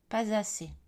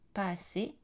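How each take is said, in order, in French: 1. Un son z relie « pas » et « assez ». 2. Les mots sont dits sans consonne de liaison. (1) "Formel, liaison" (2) "Informel, pas de liaison"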